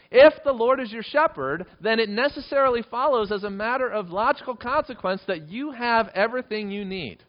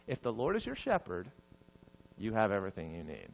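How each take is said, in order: First: High, loud, impassioned proclamation; fervent preaching. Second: Soft voice, dropping low at the end; hushed reassurance. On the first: Preacher presses the psalm's logic on congregation, loud and impassioned. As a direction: drive it home at full force. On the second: Preacher repeats the promise to congregation, hushed and reassuring. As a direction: let it settle gently, softly. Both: Real, not acted.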